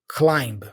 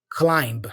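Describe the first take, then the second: Both takes have the same delivery.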